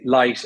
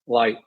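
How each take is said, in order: First: The L is light, made at the front. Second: The L is dark, made at the back. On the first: "an Irish accent's quite uh, light on L's. So we say" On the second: "Americans will say ... So it's a darker L"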